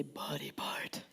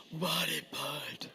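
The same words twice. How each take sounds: First: Breathy whisper, slow and soft; whispered call and response. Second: Much lower, slow and soft; deep low response; lowest range. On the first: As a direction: breathe the words out low. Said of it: "Everybody say". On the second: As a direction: drop to the bottom of your voice. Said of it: "In your lowest range". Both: Shown as a demonstration.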